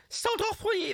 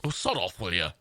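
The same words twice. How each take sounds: First: Very high, squealed Scouse; piercingly high Liverpool accent; high-pitched modern Scouse. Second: Put-on low-set old Liverpool accent; old-school Scouse, pitch falling away; deep old Scouse. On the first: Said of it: "the high pitched". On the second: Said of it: "this sort of deep Scouse". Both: Shown as a demonstration.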